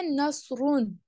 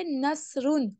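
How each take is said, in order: First: نصرون with a dark, thick s; slow "naSroon", heavy emphatic s in نصرون; full heavy sad. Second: نصرون as "nasroon" with a thin hissing s; light whistled s in نصرون; whistling seen. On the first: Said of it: "اس میں سواد کو بھی پر پڑھنا ہے". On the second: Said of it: "اس میں سین کی سیٹی کی آواز نکالیے". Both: Shown as a demonstration.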